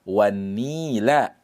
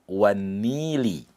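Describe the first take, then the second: First: The word ends with an a vowel. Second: The word ends with an i vowel. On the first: The speaker calls it right. "yang tepat di situ adalah wan-nila" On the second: The speaker calls it wrong. "tidak boleh dibaca wan-nili"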